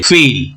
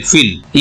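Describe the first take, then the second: First: फील said as feel, with a long stretched ee; फील as English feel, long ee sound; long vowel feel. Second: फील said as fill, with a short clipped i; फील as English fill, short i like sit; short vowel fill. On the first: Teacher reads feel to contrast it, long vowel. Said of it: "F double E L". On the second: Teacher reads fill to students, short vowel. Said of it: "F I double L". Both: Shown as a demonstration.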